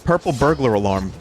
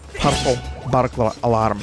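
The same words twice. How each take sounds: First: It is spoken in a plain American accent. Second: It is spoken in an imitated Scottish accent. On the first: "it's not even that easy for an American" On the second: "like a shitty Scottish accent"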